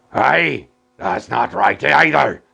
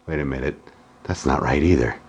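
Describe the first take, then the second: First: Gruff pirate shout; arr, talk like a pirate. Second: Said in the usual way. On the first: Acted. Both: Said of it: "Why am I talking like a pirate".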